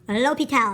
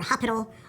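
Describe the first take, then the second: First: It does not sound like the word hospital. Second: It sounds like the English word hospital. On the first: The speaker calls it right. "the correct pronunciation" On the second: The speaker calls it wrong. "or Hospital"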